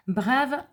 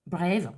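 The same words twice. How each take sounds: First: Said in the usual way. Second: Brave said the English way as brev, a bit lower, in a clumsy English accent; self-mocked English accent. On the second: Shown as a demonstration. Mom reading the oil names, jokey English accent. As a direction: try Brave in a jokey English accent and know it's bad. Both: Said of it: "super accent anglais".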